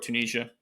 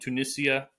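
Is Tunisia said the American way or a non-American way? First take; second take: American; non-American. First: It is said in an American pronunciation. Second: It is said in a non-American pronunciation.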